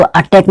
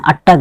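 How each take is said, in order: First: "अटैक" ending in -taik, the form being corrected; "अटैक" with second syllable like English "tack"; wrong pronunciation "अटैक". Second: "अटैक" ending in -tak, not -taik; taught pronunciation "अटक". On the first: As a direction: say "अटैक" with an open "ai" vowel, as at-TAIK. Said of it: "इसको अटैक नहीं बोलना है". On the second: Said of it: "अटैक बोलना है". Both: Shown as a demonstration.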